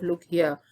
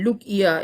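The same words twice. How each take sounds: First: Said in the usual way. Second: "Look here" with a South African accent, falling on look. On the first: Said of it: "instead of "Look here". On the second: Shown as a demonstration. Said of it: "if you listen to a South African accent".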